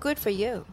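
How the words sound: The phrase is said in a sarcastic tone. The praise is not really meant. The speaker calls it wrong.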